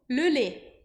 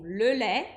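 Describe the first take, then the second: First: The vowel in lait is closed, as in Nice. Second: The vowel in lait is open, as in Paris.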